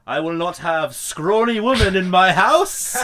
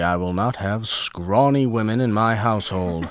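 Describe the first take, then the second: First: Loud, high hammed-up old-timey bellow; old-timey stern man. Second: A lightly voiced old-timey gentleman. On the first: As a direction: boom it like a pompous 1960s patriarch. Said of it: "Philip comes up to her and just straight up goes". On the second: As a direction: put on a mild period-film accent. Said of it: "I like doing a weird impression of it".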